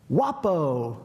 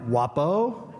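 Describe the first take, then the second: First: Stranger calling out. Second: "Wapo" rising at the end like a caution; warning. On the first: Man on the next bench calls Wapo, calling out. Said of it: "he goes". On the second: Man on the bench cautions unseen Wapo, warning. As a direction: imitate a stranger's warning call. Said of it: "he says it like a warning". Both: Retold or imitated.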